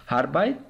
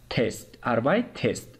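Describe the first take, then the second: First: Said in the usual way. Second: "هربایت تست" said as ar-beit-est with the e sounded; teacher spells out "هربایت تست" in separate beats; syllable split shown. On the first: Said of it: "یعنی چی؟". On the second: Shown as a demonstration. Teacher shows students how "هربایت تست" is split, with the e sounded.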